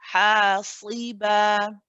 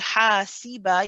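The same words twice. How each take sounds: First: The s sound is heavy and thick. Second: The s sound is light and thin. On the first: The speaker calls it right. "You want to say hasi, hasiba" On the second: The speaker calls it wrong. "You don't want to say hasiba"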